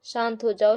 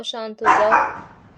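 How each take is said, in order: First: Said in the usual way. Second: Drawn-out शांत हो जाओ, said slowly and calmly; calm the puppy down, very slowly; slow soothing. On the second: Acted. Soothing a barking dog. (धीमी, शांत आवाज़ में)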